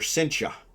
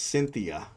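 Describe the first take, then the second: First: The name is said with a local Filipino pronunciation. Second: The name is said with an American pronunciation. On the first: "They call her Cynthia" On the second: "is how I would pronounce it as an American"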